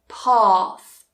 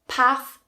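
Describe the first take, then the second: First: The vowel is long, as in father. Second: The vowel is short, as in trap. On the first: The speaker is from the south of England. "in the south, you will hear that very long ah sound" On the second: The speaker is from the north of England. "in the north, you will hear that very short ah"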